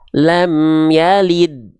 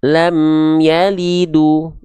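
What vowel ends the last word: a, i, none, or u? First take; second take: none; u. First: The last word ends on a bare 'd' consonant. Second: The last word ends with a 'u' vowel. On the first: The speaker calls it right. "tapi dia dibaca lam yalid" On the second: The speaker calls it wrong. "ataupun lam yalidu. Nggak"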